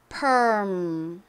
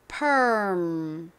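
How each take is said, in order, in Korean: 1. 미국식으로 말해요. R 소리가 나요. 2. 미국식으로 말해요. R 소리가 나요.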